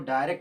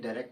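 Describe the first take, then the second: First: The word is drawn out and stretched. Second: The word is said short, not stretched. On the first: The speaker calls it wrong. "डायरेक्ट ना बोल करके" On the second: The speaker calls it right. "बहुत खींच कर नहीं"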